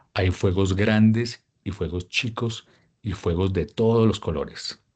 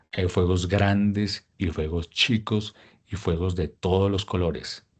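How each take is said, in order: No difference in how they are said.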